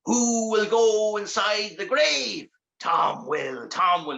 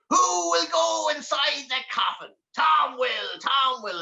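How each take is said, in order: First: Slow, drawn-out distant chant; muffled demon call from outside; muffled voices. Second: High, slow demon chant; drawn-out high imp call; awful excited. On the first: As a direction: call it slowly as if heard through a coffin lid. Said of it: "he heard the muffled voices". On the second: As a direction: call it out long and high with glee. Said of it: "awful excited now at this stage". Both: Acted.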